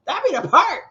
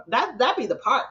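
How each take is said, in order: First: "That be the part" higher and louder with "part" rising; emphatic repeat. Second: Said in the usual way. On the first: Real, not acted. Hammering her point about disrespectful mothers to viewers, stressing "part". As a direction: punch the line home, stressing "part" with a rise.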